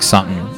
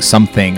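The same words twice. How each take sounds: First: The word is said loosely and reduced. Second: The word is said fully and carefully. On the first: "I do the opposite" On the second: "instead of saying something"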